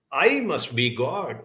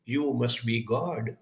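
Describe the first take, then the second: First: "I" leaned on, then a slow fall on "God"; "I must be God" with gentle weight on "I"; stress on I. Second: "You" leaned on, then a slow fall on "God"; "You must be God" with gentle weight on "You"; stress on YOU. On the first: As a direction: mildly hit "I" with smug pride, slowly. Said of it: "The kitten looks at you and says". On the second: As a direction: mildly hit "You" in awe, drawn out slowly. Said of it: "He looks up to you and says". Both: Retold or imitated.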